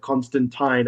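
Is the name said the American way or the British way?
British. The last part rhymes with the word Tyne. The speaker calls it right. "as in the Tyne Bridge"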